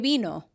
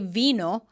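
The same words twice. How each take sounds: First: The word begins with a B sound. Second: The word begins with a V sound. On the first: The speaker calls it right. "they say vino. So it's more of a B sound" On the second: The speaker calls it wrong. "people don't say vino"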